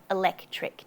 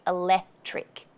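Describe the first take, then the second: First: "electric" with the middle k sounded, e-LEK-tric; C pronounced. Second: "electric" without its first C, e-LE-tric; dropped C. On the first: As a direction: keep the C before "tric" in "electric". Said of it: "or electric". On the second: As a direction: leave out the k before "tric" in "electric". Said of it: "Sometimes we drop the C". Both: Shown as a demonstration.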